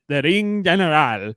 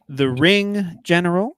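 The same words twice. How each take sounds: First: It is said in an Eastern European accent. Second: It is said in a plain, unaccented voice.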